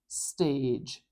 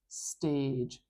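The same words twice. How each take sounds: Both takes have the same delivery.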